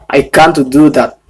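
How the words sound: It is said in a British English accent. "Tapi kalau itu bahasa Inggrisnya dari British"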